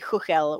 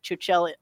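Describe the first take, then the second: First: The name is pronounced the Czech way. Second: The name is pronounced the English way. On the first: This is the original native pronunciation. "in Czech it would be Chuchel" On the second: This is how most players say it. "we're so used to people calling it Chuchel that we just call it Chuchel internally"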